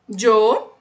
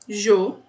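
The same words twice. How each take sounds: First: It starts with a dj sound. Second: It starts with a soft zh sound. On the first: "A segunda é a que eu falo. Som de D J" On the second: "é som de J, bem levinho"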